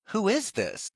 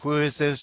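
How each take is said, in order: First: It sounds warm, curious and interested. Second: It sounds cold, irritated and dismissive. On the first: The listener is engaged and wants to know more. The speaker calls it right. "That's a positive reinforcement" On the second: The listener wants to end the call. The speaker calls it wrong. "Don't call me again"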